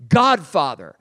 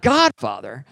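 First: Said in the usual way. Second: "Godfather?" asked with a rising tune; puzzled question. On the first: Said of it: "a word pops to my head". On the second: Retold or imitated. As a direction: turn "Godfather?" into a doubting question, voice rising at the end. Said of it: "And I'm like".

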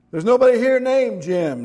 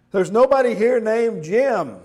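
First: Sharp, higher and louder; irritated. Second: High, loud angry shout; angry yell. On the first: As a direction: snap at the caller. Sleepy man irritated on phone. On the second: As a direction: yell it at the caller. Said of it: "he yelled". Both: Acted.

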